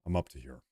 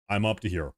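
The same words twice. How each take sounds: First: Sigh, then drop the words very low and soft, exhausted; worn out, barely pushing it out after a sigh; weary sigh. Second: Said in the usual way. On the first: Real, not acted. Streamer tells his chat he's fed up, sighing and very soft. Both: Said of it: "My fatigue is maximum".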